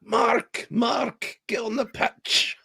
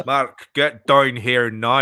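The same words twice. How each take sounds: First: High-pitched, drawn-out Northern Irish call; hammed-up Northern Irish manager calling out; attempted Northern Irish accent. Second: Very slow, drawn-out Northern Irish order; attempted Northern Irish accent. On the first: Manager calling Mark onto the pitch, hammed-up Northern Irish accent. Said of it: "He's never been Northern Irish". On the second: Manager summoning Mark to the touchline, slow mock Northern Irish accent. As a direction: stretch each word in mock Northern Irish. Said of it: "that better?".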